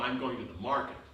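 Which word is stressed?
market. The stress is on the word market.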